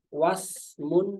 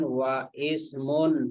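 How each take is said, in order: First: The words run together with no glottal stop. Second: A glottal stop separates the two words. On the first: The speaker calls it right. "Maka bacaannya wasmun gitu" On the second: The speaker calls it wrong. "Bukan wa ismun, bukan"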